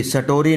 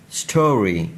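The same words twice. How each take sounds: First: First स्टोरी said "sa-tori"; wrong added vowel. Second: स्टोरी starting straight on st; joined st cluster. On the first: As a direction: put a short "a" between s and t in स्टोरी. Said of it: "ये भी स्टोरी नहीं है". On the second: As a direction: model स्टोरी with no vowel around the s. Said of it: "स्टोरी भी नहीं है". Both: Shown as a demonstration.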